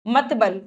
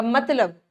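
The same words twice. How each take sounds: First: "मतबल" with b before l; mispronounced word. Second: Said in the usual way. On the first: Shown as a demonstration. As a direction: say "मतबल", swapping the sounds of मतलब. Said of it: "मतबल का कोई अर्थ है नहीं". ("मतबल", ब और ल उलटकर गलत उच्चारण) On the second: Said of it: "मतबल नहीं".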